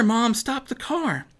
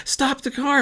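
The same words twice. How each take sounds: First: High, slower, pressing repeat; slow down and insist; slower urgent plea. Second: Sudden high cry, stop the car; cried out. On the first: Girl pressing her mom a second time, high and slower. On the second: Girl crying out to her mom from the back seat, high and urgent. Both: A narrator's reading. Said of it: "Maddie cried out".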